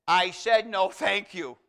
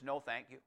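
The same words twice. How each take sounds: First: Imitated loud, insistent rebuff; retold telling-off, hit hard at the start; firm repeated refusal. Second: Soft, lower polite no-thanks; understated turn-down, voice dropped; quiet refusal. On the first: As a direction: put your foot down, much louder. Lady firmly repeats refusal to husband. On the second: Retold or imitated. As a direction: imitate a low-key polite decline. Lady's first refusal of tract.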